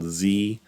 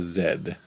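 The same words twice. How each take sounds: First: The letter is said the American way, 'zee'. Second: The letter is said the Canadian way, 'zed'.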